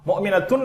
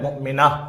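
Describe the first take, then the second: First: The word ends with an added 'tun' syllable. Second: The word ends on a plain 'a' sound. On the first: The speaker calls it wrong. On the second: The speaker calls it right.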